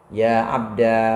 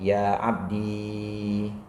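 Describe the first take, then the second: First: The word ends in a long a vowel. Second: The word ends in a long i vowel. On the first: "menetapkan alif sebagai ganti ya mutakalim" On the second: "menetapkan ya mutakalimnya"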